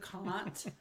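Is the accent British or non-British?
British. It is said in a British accent.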